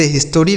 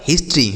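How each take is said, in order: First: "हिस्टोरी" with a full O after the T; mispronounced history. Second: "हिस्ट्री" in two syllables, his-tree; correct history. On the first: Teacher warns children against this reading, wrong three-syllable "हिस्टोरी". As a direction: say "हिस्टोरी" as his-to-ree. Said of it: "नहीं पढ़ा जाएगा". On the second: Teacher gives children the right reading, two-syllable "हिस्ट्री". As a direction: run T into R in "हिस्ट्री", no O between. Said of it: "लेकिन इसे हिस्टोरी नहीं पढ़ा जाएगा". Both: Shown as a demonstration.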